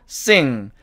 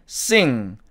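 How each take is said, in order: The two takes are said the same way.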